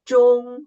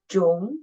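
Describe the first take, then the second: First: The pitch stays high and level. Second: The pitch rises from middle to high. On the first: "the first tone is the highest tone and flight" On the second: "The second tone, raise up"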